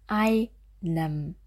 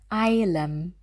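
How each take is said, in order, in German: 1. Der mittlere Konsonant ist ein N-Laut. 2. Der mittlere Konsonant ist ein L-Laut. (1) "und wieder richtig" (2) "Und im Kontrast eilem"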